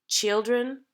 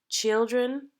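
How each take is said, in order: No difference in how they are said.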